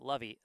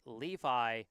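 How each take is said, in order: First: The name does not sound like the jeans brand. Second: The name sounds like the jeans brand. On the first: The speaker calls it wrong. "I had been pronouncing it Levy" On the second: The speaker calls it right. "is pronounced Levi, like uh, like the jeans"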